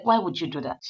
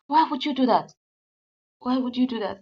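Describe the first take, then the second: First: Said in the usual way. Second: Much higher and louder, shouting the question; retold angry shout. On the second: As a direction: shout the why at her. Husband repeats, much louder.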